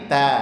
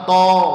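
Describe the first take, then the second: First: The t sound is light and thin. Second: The t sound is heavy and thick. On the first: The speaker calls it right. "tak tipis" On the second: The speaker calls it wrong. "taknya enggak boleh ikut tebal. Jangan to"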